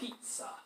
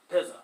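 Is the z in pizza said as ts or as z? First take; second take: ts; z. First: The z is said as a ts sound. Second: The z is said as a z sound. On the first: The speaker calls it right. "a Z in Italian makes a T S sound" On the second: The speaker calls it wrong. "sort of a lame way of saying that"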